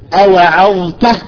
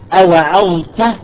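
Both takes have the same delivery.

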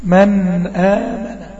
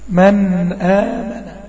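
First: The n sound is held and flows slightly. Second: The same.

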